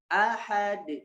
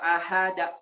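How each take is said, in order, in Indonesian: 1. Bunyi d terakhir memantul tanpa vokal setelahnya. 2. Ada vokal a tambahan setelah d terakhir.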